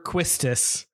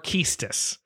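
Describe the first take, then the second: First: The name begins with a 'kw' sound. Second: The name begins with a plain 'k' sound.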